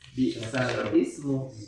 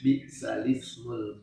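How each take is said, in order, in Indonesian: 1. Hamzah sebelum ismu diucapkan. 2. Hamzah dihilangkan, kasrahnya dipindah ke lam. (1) "kalau sesuai tulisan" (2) "dibacanya bisalismul fusuq"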